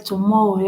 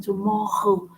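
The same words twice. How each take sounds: First: Said in the usual way. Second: "tomorrow" with a guttural French R in the middle. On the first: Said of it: "even the word tomorrow". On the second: Shown as a demonstration. Teacher showing how they stress it, "tomorrow" with guttural R. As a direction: rasp the R in "tomorrow" at the throat. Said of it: "They stress on it".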